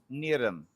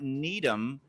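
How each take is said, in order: First: The middle consonant blends R and D. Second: The middle consonant is a clear D. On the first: The speaker calls it right. "the R and the D are mished together" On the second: The speaker calls it wrong. "it's not Needham"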